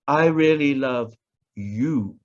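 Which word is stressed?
you. The word you is stressed. It is this person, not someone else. "not the one you saw me with last night"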